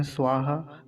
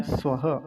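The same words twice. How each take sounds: First: "स्वाहा" with long aa; common mispronunciation. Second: "स्वः" as short sva-ha; don't lengthen the a of "स्वः"; crisp model with audible visarga; correct short vowel. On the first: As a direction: stretch the first vowel as svaa-ha. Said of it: "कुछ लोग स्वाहा कह देते हैं". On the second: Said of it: "क्या है?". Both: Shown as a demonstration.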